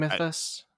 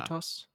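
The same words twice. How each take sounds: First: "mythos" with a short i and English th; English-style mythos. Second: "mythos" with German ü and plain t. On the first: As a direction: say "mythos" as MITH-us. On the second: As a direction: say "mythos" as MÜ-tos. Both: Shown as a demonstration. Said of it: "how do you spell it now?".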